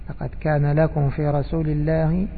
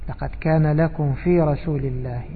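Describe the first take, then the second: No difference in how they are said.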